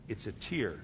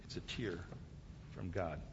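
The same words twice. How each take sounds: First: Said in the usual way. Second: Near-whisper, much lower and softer; hushed reverence. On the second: Acted. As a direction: let the last words sink into a reverent hush. Hushed close of God's answer.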